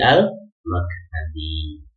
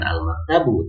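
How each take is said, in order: First: The word ends with an 'i' vowel. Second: The word ends with an 'u' vowel. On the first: The speaker calls it right. "tapi al maktabi" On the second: The speaker calls it wrong. "bukan al maktabu"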